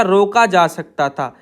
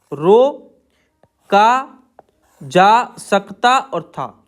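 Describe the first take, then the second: First: Said in the usual way. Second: Very slow, stretching each part of रोका जा सकता था; slow, drawn-out dictation pace. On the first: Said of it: "इस तरीके से एक साथ हो जाएगा". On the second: Shown as a demonstration. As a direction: drag the words out while the class writes. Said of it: "आगे है रोका जा सकता था".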